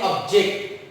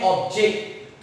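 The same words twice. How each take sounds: First: ऑब्जेक्ट said as ob-JECT, stress on the second syllable. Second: ऑब्जेक्ट said as OB-ject, stress on the first syllable. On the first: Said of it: "लेकिन जब हम इसको पढ़ते हैं". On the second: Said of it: "जब हम इसका pronunciation करते हैं". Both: Shown as a demonstration.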